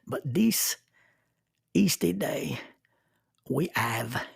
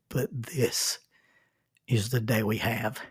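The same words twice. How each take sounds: First: It is said in a French accent. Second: It is said in the speaker's plain accent.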